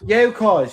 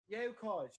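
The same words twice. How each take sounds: First: It is said loudly. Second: It is said fairly quietly.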